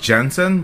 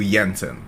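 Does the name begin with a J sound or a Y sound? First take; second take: J sound; Y sound. First: The name begins with a J sound. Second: The name begins with a Y sound. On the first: "It's spelled Jensen" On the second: "you actually pronounce in EU Jensen"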